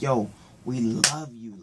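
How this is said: It is said warmly, with real feeling. The affection is genuine appreciation. "like we appreciate you"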